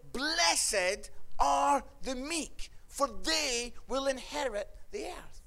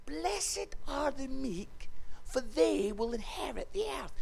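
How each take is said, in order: First: Slow, measured proclamation; solemn scripture quote. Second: Hushed repeat. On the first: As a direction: quote it slowly, word by word. First quote of the beatitude. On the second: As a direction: repeat it gently, hushing as it goes. Jesus repeats it for baffled listeners. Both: Acted.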